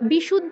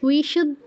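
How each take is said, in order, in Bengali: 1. প্রথম ব্যঞ্জনটি একটি কঠিন b ধ্বনি। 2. প্রথম ব্যঞ্জনটি একটি নরম w ধ্বনি। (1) "বিশুদ্ধ নয়" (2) "কিন্তু অন্তস্থ ব আছে"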